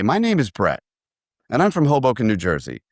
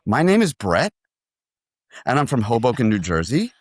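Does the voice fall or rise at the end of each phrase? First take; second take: fall; rise. First: Each phrase falls in pitch at the end. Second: Each phrase rises in pitch at the end. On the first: It sounds like a statement. The speaker calls it right. "When that should have gone" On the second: It sounds like a question. The speaker calls it wrong. "answer those first three phrases on what we call the upturn"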